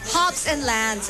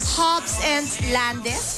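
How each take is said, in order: First: The last word is said with one syllable. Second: The last word is said with two syllables. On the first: The speaker calls it right. "Lands, Lands lang" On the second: The speaker calls it wrong. "Is that how you pronounce it?"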